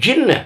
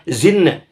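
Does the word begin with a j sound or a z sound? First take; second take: j; z. First: The word begins with a j sound. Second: The word begins with a z sound. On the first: The speaker calls it right. "mengucapkan wa ma khalaqtul jinna" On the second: The speaker calls it wrong. "bukan zinna"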